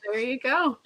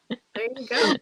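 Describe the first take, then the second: First: Said in the usual way. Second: Soft breathy echo; whisper. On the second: Shown as a demonstration. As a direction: whisper it back. Said twice, second whispered.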